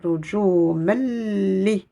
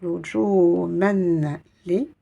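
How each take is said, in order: First: "Ruju Melli" with no n and a long held L; assimilated n, insistent L. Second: "Ruju Men Li" with the n of Men clearly sounded; unassimilated n. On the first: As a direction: slowly merge Men into Li as Melli. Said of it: "Je vais assimiler ce son". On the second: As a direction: keep Men and Li separate, n audible. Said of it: "Je ne dirai pas". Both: Shown as a demonstration.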